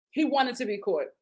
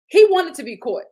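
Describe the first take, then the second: First: Said in the usual way. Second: Emphatic loud. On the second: Real, not acted.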